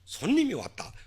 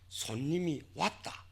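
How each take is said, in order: First: The stress falls on the first word. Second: The stress falls on the second word. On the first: An unexpected guest has arrived. "손님이 악센트가 오면 악센트가 오면 새로운 정보 비한정성을 나타내게 됩니다" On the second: The guest is the one who was expected. "왔다에 악센트가 오면 악센트가 오면 주신시가 되는 겁니다"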